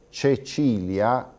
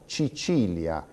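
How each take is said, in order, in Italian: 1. La prima vocale suona come e. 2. La prima vocale suona come i. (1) "Invece di pronunziare Cecilia" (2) "diciamo Cicilia"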